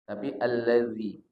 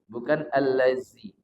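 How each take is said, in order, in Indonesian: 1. Huruf tengahnya bunyi 'th' yang bersuara. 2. Huruf tengahnya bunyi z yang mendesis. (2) "bedakan dengan huruf zai. Bukan allazi"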